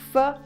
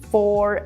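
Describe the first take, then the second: First: The word is said with a quick, reduced vowel. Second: The word is said with a full, clear vowel. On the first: The speaker calls it right. "A very quick sound" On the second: The speaker calls it wrong. "almost never say for"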